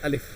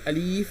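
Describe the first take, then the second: First: The vowels are said short and quick. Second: The vowels are drawn out long. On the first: The speaker calls it right. "इसको हम जल्दी पढ़ेंगे" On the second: The speaker calls it wrong. "खींच कर बिल्कुल भी नहीं पढ़ते हैं"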